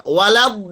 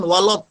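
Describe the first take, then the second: First: Walad with a light, open la; thin lam. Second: Walad wrongly said as walod; thick lam. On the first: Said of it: "di sini tipis". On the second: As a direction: round the la of walad into lo. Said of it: "jangan sampai tebal". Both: Shown as a demonstration.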